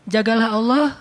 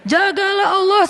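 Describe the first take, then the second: First: It is said gently, without anger. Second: It is said in an angry tone.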